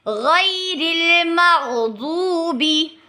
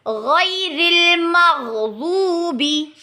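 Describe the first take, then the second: The two takes are said the same way.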